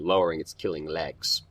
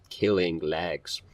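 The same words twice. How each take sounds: First: Said in the usual way. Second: "Killing legs" drawn out at half speed; "Killing" stretched, then "legs" falling; savoring the phrase. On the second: Real, not acted. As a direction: linger slowly on both words of "Killing legs". Repeats the odd phrase slowly.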